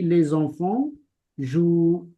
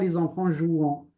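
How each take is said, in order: First: The verb ends with a plain oo sound. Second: The verb ends with a nasal vowel sound. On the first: The speaker calls it right. "On ne prononce pas le ent, on dit les enfants jouent" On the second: The speaker calls it wrong. "on dit pas les enfants jouant"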